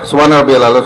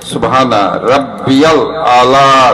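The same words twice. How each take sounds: First: The vowels are short and the phrase is rushed. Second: The vowels are drawn out, especially the last one. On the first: The speaker calls it wrong. "আপনি যদি ওইভাবে বলেন" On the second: The speaker calls it right. "তিন আলিফ টান আছে আলার পরে"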